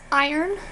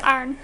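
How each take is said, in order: First: IRON in two syllables, "eye-urn"; full two-syllable IRON; pronunciation for the metal. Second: IRON squashed to "arn"; one-syllable IRON, like "arn"; pronunciation for pressing clothes. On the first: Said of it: "if it's the metal". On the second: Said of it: "thing you use to press clothes". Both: Shown as a demonstration.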